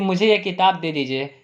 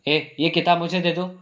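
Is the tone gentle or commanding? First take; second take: gentle; commanding. First: It is said gently, as a polite request. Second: It is said bossily, as a sharp command.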